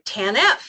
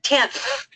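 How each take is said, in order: First: Two syllables, with the stress on the last. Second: Said as one single syllable. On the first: "put the stress on the last signature" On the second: "make it a one-syllable word"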